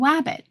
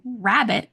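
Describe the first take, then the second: First: The word begins with a W sound. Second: The word begins with an R sound. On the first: "they don't have the ability to say the R sound" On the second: "instead of saying rabbit"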